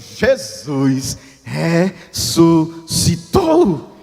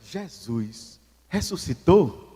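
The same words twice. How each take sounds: First: It is said with noticeably more excitement. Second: It is said with calm, ordinary energy.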